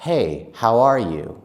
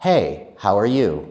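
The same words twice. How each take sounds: No difference in how they are said.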